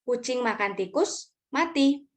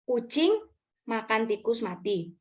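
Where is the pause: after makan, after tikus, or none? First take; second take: after tikus; none. First: There is a pause before the last word. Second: It is read straight through without a pause. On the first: The cat eats the rat and then dies. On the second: A cat eats a dead rat.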